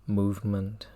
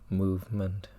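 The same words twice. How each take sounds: The two takes are said the same way.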